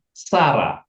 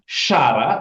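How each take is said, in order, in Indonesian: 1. Nama itu diawali dengan bunyi s. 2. Nama itu diawali dengan bunyi sh. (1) "tapi Sarah" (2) "Bukan Syara"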